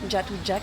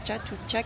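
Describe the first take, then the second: First: The name begins with a 'j' sound. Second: The name begins with a 'ch' sound. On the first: The speaker calls it right. "c'est un J" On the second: The speaker calls it wrong. "je crois que pas du tout que ça se prononce comme ça"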